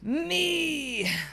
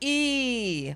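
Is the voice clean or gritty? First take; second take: gritty; clean. First: The voice is distorted and gritty. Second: The voice is clean with no grit.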